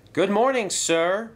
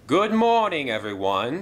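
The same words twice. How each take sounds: First: High, loud chorus of engines. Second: Hearty, high cheerful greeting; Sir Topham Hatt voice. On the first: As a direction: answer brightly as a group of engines. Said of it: "replied the engines". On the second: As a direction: boom a warm good morning to the engines. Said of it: "he said". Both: A narrator's reading.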